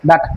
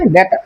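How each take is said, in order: First: The first vowel sounds like 'ah'. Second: The first vowel sounds like 'ay'. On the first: The speaker calls it wrong. "আসলে এটার উচ্চারণ ডাটা না" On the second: The speaker calls it right. "এটার সঠিক উচ্চারণ হবে ডেটা"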